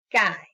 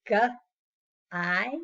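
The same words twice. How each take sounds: First: Said in the usual way. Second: "G-I" split slowly into two sounds; segmented sounds. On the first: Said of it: "the last one is guy". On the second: Shown as a demonstration. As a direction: break "G-I" into hard g, pause, long i. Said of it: "into two different sounds".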